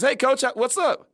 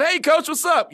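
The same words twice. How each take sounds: First: Slow, higher, grinning hello; smiling greeting. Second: Higher, louder, beaming hello; smiling greeting. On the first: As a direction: draw it out with a big smile. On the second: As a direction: greet the coach with a big grin. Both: Retold or imitated. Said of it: "I got a big smile on my face".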